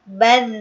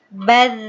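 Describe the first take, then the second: Both takes have the same delivery.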